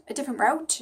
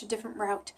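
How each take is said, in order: First: Different route lifted into a rising question; rising tune. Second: Different route settled with a soft falling close; falling tune. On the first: Trying out the phrase for herself, with a rising tune. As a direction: end "route" on a clear upward lift. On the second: Trying out the phrase for herself, softer with a falling tune. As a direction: drop "route" down and quieter, final. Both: Shown as a demonstration. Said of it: "So I'm going down a ri".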